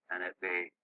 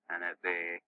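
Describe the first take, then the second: No difference in how they are said.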